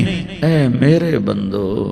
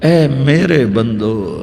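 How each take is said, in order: No difference in how they are said.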